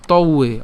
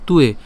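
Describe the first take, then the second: First: "ত উয়ে" as two parts, to, u-e; split pronunciation. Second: "তুয়ে" run together as tu-e; joined pronunciation. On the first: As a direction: break "ত উয়ে" after the first sound. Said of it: "এটাকে ভাঙলে". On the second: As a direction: blend "তুয়ে" into one word. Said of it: "একসাথে যদি উচ্চারণ করি". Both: Shown as a demonstration.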